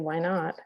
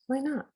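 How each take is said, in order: First: It is said in a flat, dismissive way. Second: It is said in an open, curious way. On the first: There are reasons it cannot happen. The speaker calls it wrong. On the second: The possibility is genuinely open. The speaker calls it right.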